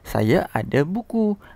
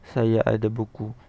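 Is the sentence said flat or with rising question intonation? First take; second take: rising; flat. First: The pitch goes up high near the end. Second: It is said flat, with no intonation. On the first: It is asked as a question. "itu ada intonasi" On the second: It is a plain statement. "tak ada intonasi"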